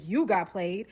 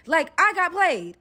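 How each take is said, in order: First: Incredulous captor. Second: Loud, high, drawn-out grievance; indignant complaint. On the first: Captor doubting the captive's complaint, incredulous. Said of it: "he's like". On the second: Captive complaining to captor she was fooled, indignant. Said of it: "I was like". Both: Retold or imitated.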